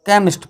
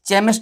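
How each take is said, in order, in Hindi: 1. यह शब्द 'k' ध्वनि से शुरू होता है। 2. यह शब्द 'ch' ध्वनि से शुरू होता है। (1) "सी एच को हमने यहां पे क्या पढ़ा" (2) "केमिस्ट नहीं पढ़ा"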